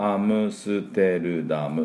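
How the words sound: It is said as seven Japanese morae. The speaker calls it wrong. "日本語だと、"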